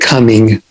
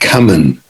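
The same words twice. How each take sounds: First: The word ends with a full 'ing' sound. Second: The word ends with a changed, clipped ending. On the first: The speaker is a proper, well-behaved student. "didn't say coming" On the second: The speaker sees himself as tough and nonconformist. "they changed the ing to this other uh, final velar sound"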